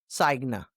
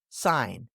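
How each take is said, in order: First: A G sound is heard. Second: The G is silent. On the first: The speaker calls it wrong. "Not signa" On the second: The speaker calls it right. "When G comes before N, it usually stays quiet"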